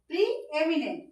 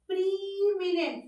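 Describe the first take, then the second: First: The two e vowels are said as separate sounds. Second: The two e vowels merge into one long ee. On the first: The speaker calls it right. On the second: The speaker calls it wrong. "প্রিমিনেন্ট নয়"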